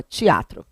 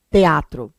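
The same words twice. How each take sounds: First: "teatro" as "tchiatro"; pronúncia carioca. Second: "teatro" with a clear TE; pronúncia paulista. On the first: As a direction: turn TE into TCHI in "teatro". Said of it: "O carioca já fala". ("teatro" dito "tchiatro", com I) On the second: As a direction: keep the E in "teatro". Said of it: "o paulista até fala direitinho". ("teatro" com E claro: TE-atro) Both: Shown as a demonstration.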